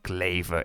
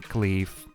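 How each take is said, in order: First: The name is said with German pronunciation. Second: The name is said with English pronunciation.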